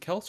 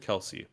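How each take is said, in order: First: The name is said as one syllable. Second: The name is said as two syllables. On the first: The speaker calls it right. "it's apparently Kels" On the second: The speaker calls it wrong. "everyone says Kelsey"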